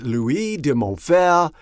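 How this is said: The name is pronounced the French way.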